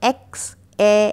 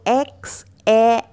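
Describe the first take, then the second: The two takes are said the same way.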